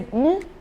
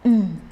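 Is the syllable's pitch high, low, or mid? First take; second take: high; low. First: The syllable is said on a high pitch. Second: The syllable is said on a low pitch. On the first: "every system in your body have to stand up or maybe have to rise" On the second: "the lower one is mm"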